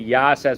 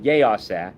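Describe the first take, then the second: First: The first vowel is a flat 'ah' sound. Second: The first vowel is an 'eh' sound. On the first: The speaker calls it wrong. "if you make a flat ah sound like with a patach" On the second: The speaker calls it right. "instead of saying with a tsere"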